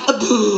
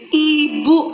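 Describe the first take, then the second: First: The first vowel sounds like 'eh'. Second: The first vowel sounds like 'ee'. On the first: The speaker calls it wrong. "jangan ya kita bilang ini ebu" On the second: The speaker calls it right.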